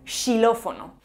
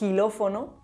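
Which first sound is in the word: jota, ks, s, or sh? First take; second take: sh; jota. First: The word begins with a sh sound. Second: The word begins with a rough jota sound. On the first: "o incluso como sh" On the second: "como j"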